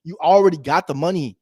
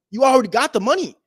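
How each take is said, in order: First: Said in the usual way. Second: Already pushed higher and louder; emphatic repeat. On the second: Shown as a demonstration. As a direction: hit "already" hard, up in the voice.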